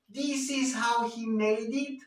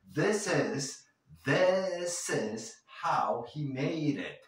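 First: This said as theese with a high tight ee, much higher; exaggerated high bright ee in this, the wrong way; wrong sharp ee. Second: This with a lax short i, close to thes; the correct loose i, not sharp; relaxed short i. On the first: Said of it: "No estoy diciendo". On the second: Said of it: "Menos agudas". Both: Shown as a demonstration.

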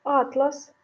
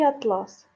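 First: Атлас with the stress on the first а, а́тлас, a book of maps; stress on the first syllable. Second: Атлас with the stress on the last syllable, атла́с, the fabric; stress on the second syllable. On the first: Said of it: "Подивіться". (наголос на першому складі: а́тлас) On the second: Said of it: "збірка мап". (наголос на другому складі: атла́с) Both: Shown as a demonstration.

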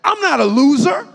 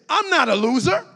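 First: Louder, chest-out I'm not a loser; chest puffed out. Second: Loud declaration of I'm not a loser; declared aloud. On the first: Preacher showing how to say it with chest puffed, proud and loud. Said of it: "puff out your chest when you say that". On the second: Preacher modelling the declaration for the church, loud. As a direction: proclaim it to the room. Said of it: "So say this". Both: Shown as a demonstration.

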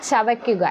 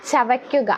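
The two takes are said the same way.

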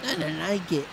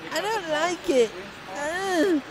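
First: Said in the usual way. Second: Much higher, distressed repeat; alarmed whine. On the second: Real, not acted.

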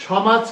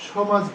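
First: "সমাজ" with an open first vowel, shɔmaj; "সমাজ" as shɔ-maj, open ɔ; correct open vowel. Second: "সমাজ" with a closed o, shomaj; "সমাজ" shown wrong with closed o; wrong closed vowel. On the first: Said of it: "সমাজ বলবো". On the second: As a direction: say "সমাজ" as sho-maj, lips pressed. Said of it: "সমাজ বলবো না". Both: Shown as a demonstration.

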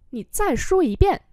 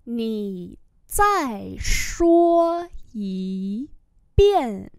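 First: Said in the usual way. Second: Very slow, syllable by syllable; slow model reading. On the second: Shown as a demonstration. Teacher repeating a request for learners, very slowly. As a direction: draw every tone out.

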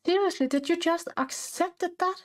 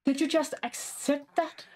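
First: Higher, outraged disbelief; incredulous. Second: Stunned that the pet just accepted; surprised disbelief. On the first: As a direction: really hammer the disbelief. Repeats with more disbelief. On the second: Pet accepts the training offer. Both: Real, not acted.

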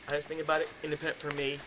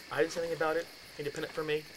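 The two takes are said the same way.

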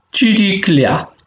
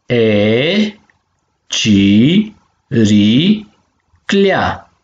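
First: Said in the usual way. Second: Clea split as ci, ri, clea with gaps; syllable by syllable. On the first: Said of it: "savoro olaf si". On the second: Shown as a demonstration. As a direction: sound out ci - ri - clea in separate, drawn-out beats. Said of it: "So de silabe si". (pe silabe: ci, ri, clea)

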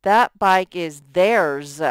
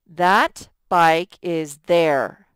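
First: Slow and louder, landing on "theirs"; slow right version. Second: Slow and louder, testing "there"; slow wrong version. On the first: Teacher gives the right pronoun slowly to the class. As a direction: settle firmly on "theirs". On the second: Teacher tests the wrong word slowly for the class. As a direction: read it slowly to hear "there" fail. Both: Shown as a demonstration. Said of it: "We would use the pronoun theirs".

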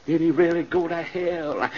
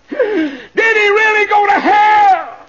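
First: Said in the usual way. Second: High, slow, very loud wail; drawn-out shout of disbelief; anguished widow's cry. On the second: Acted. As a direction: wail the question in horror, stretching it out.

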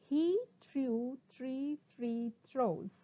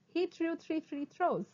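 First: Very slow, word by word; slow tongue twister. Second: Higher, quicker take; sped-up tongue twister. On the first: Teacher introduces a twister to students, very slowly. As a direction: draw out every word. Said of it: "first try saying them slowly". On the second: Teacher speeds up the twister for students, briskly. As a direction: run the words together briskly. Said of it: "speed up". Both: Shown as a demonstration.

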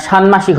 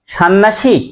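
First: ষান্মাসিক said shan-mashik, m sounded; alternative pronunciation. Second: ষান্মাসিক said shan-nashik, m turned to n; questioned mispronunciation. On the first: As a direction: keep n then m in ষান্মাসিক. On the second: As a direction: double the n in ষান্মাসিক, losing the m. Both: Shown as a demonstration. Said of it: "না ষান্মাসিক হবে?".

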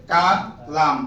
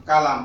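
First: কালাম split into two parts, কা and লাম; teacher breaking up Kalam for learners; syllable by syllable. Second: Said in the usual way. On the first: Shown as a demonstration. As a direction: sound out Kalam slowly in separate syllables. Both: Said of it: "উচ্চারণ শুধু, বানান নাই আর".

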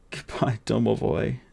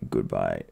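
First: Put-on softer, tearful Goodbye in the boy's voice; boy sobbing farewell to his friend. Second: Much lower, softer, fading goodbye; last farewell of a dying man; dying bodyguard's goodbye. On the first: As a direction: Goodbye said through tears, near breaking. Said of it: "sobbed the boy". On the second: Acted. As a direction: Goodbye breathed low and faint, strength going.

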